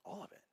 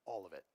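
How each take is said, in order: First: Hesitant disbelief. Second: Low, soft statement; quiet firm answer. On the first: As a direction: question it back in a small, quiet voice. Speaker questions God's answer. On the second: Retold answer from God. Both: Retold or imitated.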